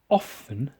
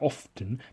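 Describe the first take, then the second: First: The T in the middle is silent. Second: The T in the middle is pronounced. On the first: The speaker calls it right. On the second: The speaker calls it wrong.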